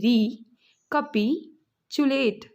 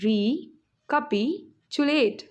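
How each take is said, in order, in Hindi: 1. शब्द को अलग-अलग अक्षरों में तोड़कर बोला जाता है। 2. शब्द को अलग-अलग अक्षरों में तोड़कर बोला जाता है।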